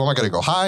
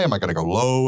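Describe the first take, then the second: First: Lifting higher. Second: Dropping lower. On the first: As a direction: voice rises on HIGH. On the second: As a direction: voice sinks toward LOW. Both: Shown as a demonstration.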